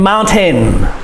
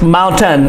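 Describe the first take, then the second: First: The last syllable has a full long A vowel. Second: The last syllable is reduced, without a long vowel. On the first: "A I makes the A sound. So we should say it mountain" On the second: "the natural way the American says this word"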